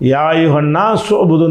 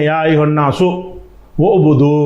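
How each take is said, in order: First: It is read joined in one breath. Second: It is read with a break into two breaths. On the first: "சேர்த்து வாசிக்கிறோம்ல" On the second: "ஒரு மூச்சில் படிக்காமல் ரெண்டு மூச்சில் படிச்சிங்கன்னு"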